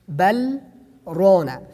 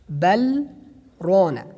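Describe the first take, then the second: Both takes have the same delivery.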